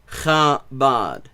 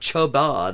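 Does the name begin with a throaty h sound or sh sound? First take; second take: throaty h; sh. First: The name begins with a throaty h sound. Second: The name begins with an sh sound. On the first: The speaker calls it right. "it's an H" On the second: The speaker calls it wrong. "It's not Chabad"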